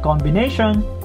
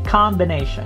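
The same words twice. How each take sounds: First: The first vowel sounds like an O. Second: The first vowel sounds like an open A. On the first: The speaker calls it wrong. "not combination" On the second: The speaker calls it right. "it's combination. This O here sounds like a letter A"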